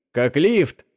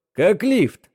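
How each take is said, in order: First: Said in the usual way. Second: «Как лифт!» громко, высоко, с ударением на «лифт»; выкрикнуть «Как лифт!» в озарении; выкрик. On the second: Acted. (выкрикнув «Как лифт!»)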